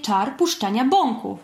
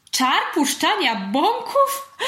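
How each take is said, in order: First: Said in the usual way. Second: High, slow amused question; giggly. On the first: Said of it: "Pacodziej uśmiechnął się chytrze i powiedział". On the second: A narrator's reading. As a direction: echo it with a tickled, rising disbelief. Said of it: "zachichotał Pacyniusz". (rozchichotane pytanie)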